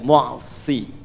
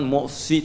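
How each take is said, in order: First: It is said with the lips relaxed, not pushed. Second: It is said with the lips pushed forward. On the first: The speaker calls it right. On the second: The speaker calls it wrong. "manyun ke depan"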